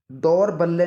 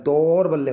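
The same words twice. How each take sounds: First: दौर बल्ले as the mistaken form, raised and slow; wrong pronunciation. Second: दौर बल्ले with a long, heavy first syllable, "daur"; correct pronunciation. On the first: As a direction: show दौर बल्ले as the one to reject. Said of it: "दौर बल्ले नहीं होता". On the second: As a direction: lean on the opening of दौर बल्ले. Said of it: "दौर बल्ले होता है". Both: Shown as a demonstration.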